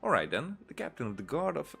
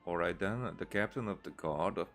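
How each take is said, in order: First: It is spoken naturally, with lively expression. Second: It is read flatly, without natural expression. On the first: The speaker calls it right. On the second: The speaker calls it wrong.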